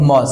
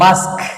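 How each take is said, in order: First: The vowel sounds like 'o' in 'moss'. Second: The vowel sounds like 'a' in 'mask'. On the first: The speaker calls it wrong. "অনেকে বলে কিন্তু মস" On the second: The speaker calls it right. "আসলে উচ্চারণ কি মাস্ক"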